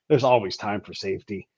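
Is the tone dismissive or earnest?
dismissive. It is said in a dismissive, shrugging tone. Sometimes the mission comes before safety. "You can also go, eh"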